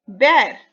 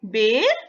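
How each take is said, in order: First: बैर with a wide open ai vowel, a bit louder; teacher models बैर, opening the vowel. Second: बेर with a close e vowel; teacher models बेर with a tight e. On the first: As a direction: say बैर with a broad ai. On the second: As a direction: say बेर clearly with e. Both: Shown as a demonstration. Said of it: "देख रहे हैं आप दोनों मात्राओं का फर्क बेटा?".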